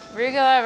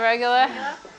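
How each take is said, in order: First: The first vowel sounds like 'oo'. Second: The first vowel sounds like 'eh'.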